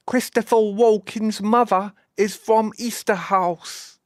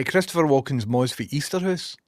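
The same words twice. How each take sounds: First: High, slow, over-enunciated mock English accent; put-on English accent. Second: Said in the usual way. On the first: Shown as a demonstration. Streamer translating Scots for baffled viewers, in a put-on English accent. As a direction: translate the Scots into exaggerated, careful English pronunciation. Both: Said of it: "In case you didn't understand what I was saying".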